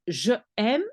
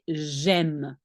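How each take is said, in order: First: The pronoun is said as a separate syllable. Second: The pronoun is joined onto the verb. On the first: The speaker calls it wrong. "you will not say je aime" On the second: The speaker calls it right. "link it together, cut away the E of je"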